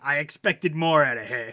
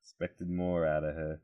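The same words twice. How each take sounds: First: Put-on slow, loud Boston-accent scolding; disappointed sitcom dad with a Boston accent. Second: Put-on soft, low Boston-accent disappointment. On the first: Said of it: "in his Boston accent". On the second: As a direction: quietly imitate a let-down dad from Boston. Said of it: "disappointed father in a T V sitcom".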